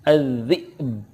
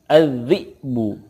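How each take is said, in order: First: The word ends on a bouncing b. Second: The word ends with a final vowel sound. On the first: The reader stops at this word. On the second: The reader continues without stopping.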